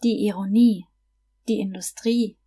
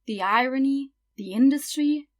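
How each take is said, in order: First: Ironie and Industrie stressed on the final syllable, nie and trie; teacher shows learners the German stress on the final syllables; German stress on last syllable. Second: Irony and industry stressed on the first syllable; teacher contrasts the English stress with German, stressing the first syllables. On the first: German final stress on Ironie and Industrie. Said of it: "you just stress the last syllable". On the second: English stress on irony and industry. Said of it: "in English you would stress the first syllable". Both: Shown as a demonstration.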